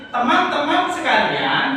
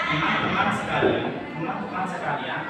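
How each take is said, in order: First: "teman-teman sekalian" firmly emphasized and higher; strong stress. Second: "teman-teman sekalian" soft and unemphatic; weak stress. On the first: Teacher showing the class "teman-teman sekalian" with strong stress. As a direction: lift and punch "teman-teman sekalian". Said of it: "Jadi tekanannya di situ harus". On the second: Teacher showing the class "teman-teman sekalian" said softly, with weak stress. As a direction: let "teman-teman sekalian" drop away without punch. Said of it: "Kalau tekanan itu misalkan". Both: Shown as a demonstration.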